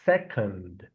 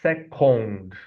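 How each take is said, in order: First: The second syllable has a reduced uh vowel. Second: The second syllable has a full o vowel. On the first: The speaker calls it right. "We're gonna use again the sound uh" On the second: The speaker calls it wrong. "as most Brazilians would imagine reading the word"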